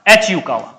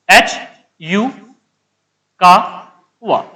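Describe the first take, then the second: First: Said in the usual way. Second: H, यू, कावा in separate pieces with long pauses; slow name dictation. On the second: Real, not acted. Teacher writing the scientist's name, piece by piece dictation. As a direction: break up H यू कावा, stretching कावा slowly. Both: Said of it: "इधर लिख देता हूं".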